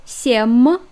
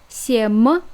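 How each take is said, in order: First: The final M sound is hard. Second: The final M sound is hard.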